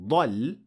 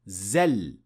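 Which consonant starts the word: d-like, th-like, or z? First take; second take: d-like; z. First: It starts with an emphatic d-like sound. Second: It starts with a plain z sound. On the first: The speaker calls it right. "instead of saying ضل" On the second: The speaker calls it wrong. "they would end up saying زل"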